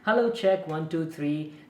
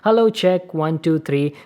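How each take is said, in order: First: The voice is recorded about six feet away. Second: The voice is recorded about one foot away. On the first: "around like six feet distance from the microphone. It's quite far" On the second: "from very close distance of around one feet"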